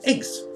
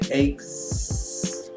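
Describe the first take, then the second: First: The word is said quickly and shortly. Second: The final S sound is stretched and stressed. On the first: "We say it fast" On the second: "When we stress that sound"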